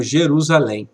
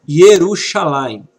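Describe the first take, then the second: First: Said in the usual way. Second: "Yerushalayim" with initial y and a sh sound; Hebrew pronunciation. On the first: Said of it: "conhecemos como". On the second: Shown as a demonstration. Teacher gives students an example word, Hebrew pronunciation of "Yerushalayim". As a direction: say "Yerushalayim" the Hebrew way, ending in -ayim. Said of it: "conhecemos como Jerusalém".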